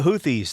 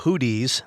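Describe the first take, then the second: First: The middle consonant is a th sound. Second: The middle consonant is a plain t sound. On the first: The speaker calls it right. "thank you for correcting my pronunciation" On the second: The speaker calls it wrong. "Not the Hooties. That's an old rock band"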